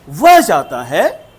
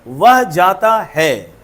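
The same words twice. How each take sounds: First: It is said with surprise. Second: It is said as a plain statement.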